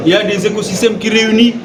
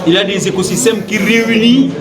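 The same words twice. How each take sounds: The two takes are said the same way.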